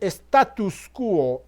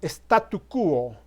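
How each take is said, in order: First: The first word ends with an s sound. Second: The first word ends without an s sound. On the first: The speaker calls it wrong. "Es incorrecto decir status quo" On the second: The speaker calls it right. "sino statu quo"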